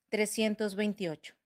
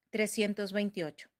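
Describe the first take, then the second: The two takes are said the same way.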